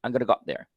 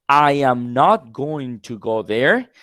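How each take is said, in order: First: I'm gonna go there, soft and quick with gonna run together; casual gonna. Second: I am not going to go there, slow with not stressed; slow careful full form. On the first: Teacher models how native speakers actually say it. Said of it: "they say". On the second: Teacher shows the full form to contrast gonna. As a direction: spell out every word, the textbook way. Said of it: "Instead of saying that". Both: Shown as a demonstration.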